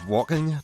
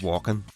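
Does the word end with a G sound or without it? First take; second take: with G; without G. First: The ending is said with the G sound. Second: The ending is said without the G sound.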